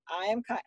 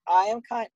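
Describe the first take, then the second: First: Higher, softer repeat; retold parent playing along; obedient echo. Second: Higher, lightly voiced kid; small child's affirmation, imitated; imitated child leading. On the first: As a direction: echo it back dutifully and quietly. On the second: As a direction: prompt like an insistent preschooler. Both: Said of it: "You need to repeat it".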